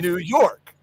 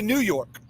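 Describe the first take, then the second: First: The stress falls on the word York. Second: The stress falls on the word New. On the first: The speaker calls it right. "the emphasis is on the second syllable" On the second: The speaker calls it wrong. "that's wrong"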